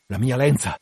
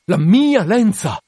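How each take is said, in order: First: Restrained, disbelieving repeat; contained first reaction; stunned echo. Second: Loud, high, drawn-out cry; horrified outcry. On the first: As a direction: take it in at ordinary volume. Captain takes in the news. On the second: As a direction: cry out slowly, stretching MIA. Captain repeats it, now crying out. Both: Acted.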